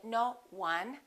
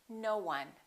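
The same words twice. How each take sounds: First: The two words are said separately, without linking. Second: A small w sound joins the two words. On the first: The speaker calls it wrong. "We don't say no one" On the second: The speaker calls it right. "We put a little w in there and we say"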